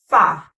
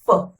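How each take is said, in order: First: The consonant is followed by a full 'ah' vowel. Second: The consonant is followed by only a short schwa. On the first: The speaker calls it wrong. "you used to say fa" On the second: The speaker calls it right. "you add the schwa song instead of a"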